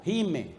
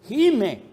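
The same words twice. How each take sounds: First: Said in the usual way. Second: "Gime" called out high and loud with a fall; groaning cry. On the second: Shown as a demonstration. ("Gime" gritado, alto y fuerte)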